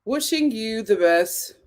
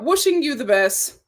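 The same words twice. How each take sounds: First: Slower, softer, heartfelt; quiet tender echo; softer sincere repeat. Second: Said in the usual way. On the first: Shown as a demonstration. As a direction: say it again gently, meaning it.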